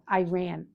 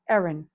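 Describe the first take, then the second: First: The first syllable sounds like the letter A. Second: The word sounds like the name Erin. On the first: The speaker calls it wrong. "I'm pronouncing that A" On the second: The speaker calls it right. "It's Erin"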